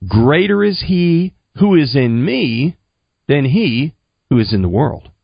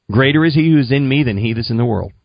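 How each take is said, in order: First: Deliberate recitation. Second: Quick run-through of the verse; brisk recitation. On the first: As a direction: measure it out phrase by phrase. Teaching a verse to repeat. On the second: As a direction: rattle it off in one go, as copied down. Reading back the written verse. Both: Retold or imitated.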